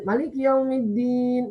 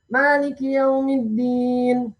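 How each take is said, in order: First: The first vowel of Malik is short. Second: The first vowel of Malik is long. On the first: This is the reading of most of the seven imams. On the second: This is the reading of two of the seven imams.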